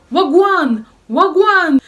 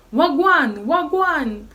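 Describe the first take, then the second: First: Shrill high yelled greeting; retold yell. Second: High yelled greeting, a bit less full; retold yell. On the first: Jamaican flatmate yelling at the narrator, loud and high. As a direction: bellow it across the flat. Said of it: "elle commence à crier". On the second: Flatmate keeps yelling at the narrator, high and loud. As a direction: shout it again, slightly worn. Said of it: "qu'elle criait H vingt-quatre".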